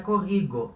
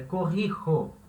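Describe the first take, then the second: First: The middle consonant is a hard g sound. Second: The middle consonant is a rasping h sound. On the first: The speaker calls it wrong. "não é corrigo" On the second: The speaker calls it right. "é corrijo"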